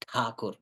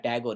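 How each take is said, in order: First: The surname is said in the Bengali form. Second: The surname is said in the anglicized form. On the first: The speaker calls it right. "it is Thakur" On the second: The speaker calls it wrong. "It's not a Tagore"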